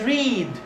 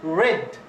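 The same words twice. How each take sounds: First: It does not sound like the colour red. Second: It sounds the same as the colour red. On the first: It is the present tense of the verb. "The first one is read, verb one" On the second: It is the past tense or past participle. "They're read, read. Okay, it's like this one, red"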